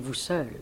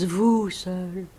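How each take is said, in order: First: It is said with plain, neutral intonation. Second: It is said with warm, loving intonation. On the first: The speaker does not love the man addressed. "Ce ne serait pas un homme qu'elle aime, elle dirait vous seul" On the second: The speaker loves the man addressed. "l'intonation que j'y mets"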